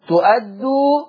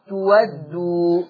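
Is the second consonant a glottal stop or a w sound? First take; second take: glottal stop; w sound. First: The second consonant is a glottal stop. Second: The second consonant is a w sound.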